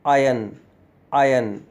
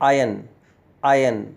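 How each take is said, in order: Both takes have the same delivery.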